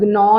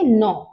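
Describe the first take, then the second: First: The word begins with a hard g sound. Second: The word begins directly with an n sound. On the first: The speaker calls it wrong. "तो आप इसको ग्नॉ नहीं कहें" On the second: The speaker calls it right. "You will not use the sound of जी, you will say नॉ"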